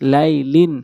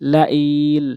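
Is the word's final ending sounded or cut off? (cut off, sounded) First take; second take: sounded; cut off. First: The word ends with its full final ending sounded. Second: The word stops on its final consonant. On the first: "লাম দুই জেরে লিন" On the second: "ওয়াকফ করলে লা ইল"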